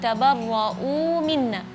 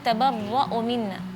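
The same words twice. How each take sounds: First: The long vowel is held for two counts. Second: The long vowel is cut short. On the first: The speaker calls it right. "seperti di kalimat kama tabarra'u minna" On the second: The speaker calls it wrong. "Tadi bacanya tabarra'u minna"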